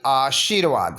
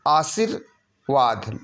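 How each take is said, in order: First: आशीर्वाद with a stretched sheer; long ee. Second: आशीर्वाद as a-sir-vaad with plain s; short i. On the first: Teacher correcting the spelling, आशीर्वाद with long shee. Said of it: "बड़ी की मात्रा". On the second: Teacher showing the error, आशीर्वाद with short sir. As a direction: keep sir brief in आशीर्वाद. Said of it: "नहीं होगा". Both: Shown as a demonstration.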